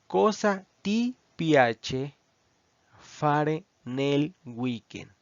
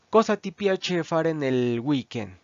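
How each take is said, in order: First: The sentence is spoken more slowly. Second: The sentence is spoken at normal speed.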